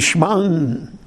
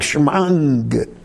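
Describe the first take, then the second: First: The word ends with an n sound. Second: The word ends with an ng sound. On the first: "You should have the nun sound in it" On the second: "the nun sound is like combined with a gimel"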